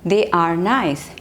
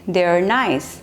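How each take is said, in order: First: The two words are said fully and separately. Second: The two words merge into one short syllable.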